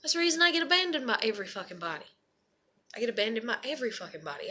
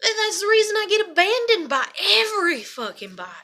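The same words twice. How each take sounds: First: Softer, quicker, dropping away; subdued repeat. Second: Venting about abandonment, higher-pitched outburst; upset outburst. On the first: Vlogger repeating why she gets abandoned, subdued. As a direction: say it low to yourself, rushed and deflated. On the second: Vlogger venting about being abandoned by everybody, upset outburst. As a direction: pour out the hurt, voice raised in pitch. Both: Real, not acted.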